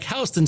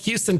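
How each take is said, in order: First: It is said like the street's name. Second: It is said like the Texas city's name. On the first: "the other is pronounced like Houston Street" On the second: "One is pronounced like Houston, Texas"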